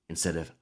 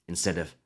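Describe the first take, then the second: The two takes are said the same way.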